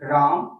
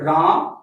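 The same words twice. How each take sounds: First: The word is said somewhat louder. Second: The word is said loudest of all. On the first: The sound carries somewhat farther. "कुछ दूर तक गया" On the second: The sound carries farther still. "मेरे आवाज थोड़ा और दूरी तक जा रहा है"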